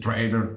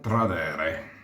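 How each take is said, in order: First: It is said as the English word trader. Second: It is read with Italian-style syllables and vowels. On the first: The speaker calls it right. "in inglese si dice trader" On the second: The speaker calls it wrong. "non si pronuncia così"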